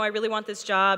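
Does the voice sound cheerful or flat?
flat. The voice sounds flat and unsmiling. The speaker calls it wrong. "as opposed to"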